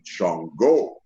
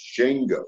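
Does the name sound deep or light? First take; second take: deep; light. First: The name is said with a deeper, darker sound. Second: The name is said with a lighter, twangier sound. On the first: This is the altered way the speaker chose to say it. "I made it a little deeper" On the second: This is the original, correct way to say the name. "the correct pronunciation of it is Shango"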